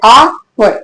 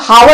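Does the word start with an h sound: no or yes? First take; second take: no; yes. First: The word begins with a vowel, no h. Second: The word begins with an h sound. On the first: The speaker calls it right. "आवर बोलते हैं" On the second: The speaker calls it wrong. "हावड़ नहीं बोलते"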